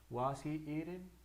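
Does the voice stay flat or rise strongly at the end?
flat. The voice stays fairly flat at the end. "hay gente que lo hace"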